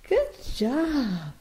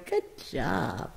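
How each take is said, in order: First: Higher, brighter praise for the bird. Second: Quiet, low murmured praise; soft praise. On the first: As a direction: lift it up to cheer him on. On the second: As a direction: murmur it gently to the bird. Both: Real, not acted. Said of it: "praise repeated, soft then high".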